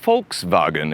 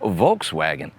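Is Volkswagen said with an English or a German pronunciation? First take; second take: German; English. First: It is said with a German pronunciation. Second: It is said with an English pronunciation. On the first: The speaker calls it right. "supposed to be pronounced Volkswagen in German" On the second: The speaker calls it wrong. "I'm even technically mispronouncing Volkswagen"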